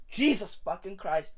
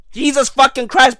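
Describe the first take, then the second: First: Very soft, low muttered curse; hushed dismay. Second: Said in the usual way. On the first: Acted. Comic despairing at his own family, hushed dismay. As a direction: swear under your breath.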